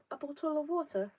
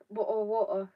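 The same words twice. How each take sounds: First: A bottle of water with a dropped British t, said higher; mock posh English bottle of water; exaggerated British accent. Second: Said in the usual way. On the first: Shown as a demonstration. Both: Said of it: "No, I just say bottle of water".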